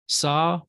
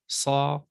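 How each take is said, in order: First: Said in the usual way. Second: "sa" with a Semitic emphatic S. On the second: Shown as a demonstration. Teacher comparing sibilants for students, emphatic "sa". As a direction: make the S in "sa" emphatic, unlike plain S. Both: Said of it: "emphatic consonant sounds a little different".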